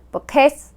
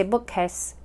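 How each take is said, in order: First: "bookcase" with the accent wrongly on "case"; misplaced stress. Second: Said in the usual way. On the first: Shown as a demonstration. Teacher showing why accent matters, stress on the wrong syllable. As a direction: lean on "case" in "bookcase", not "book". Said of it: "hard to understand". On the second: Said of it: "putting the accent on the right syllable".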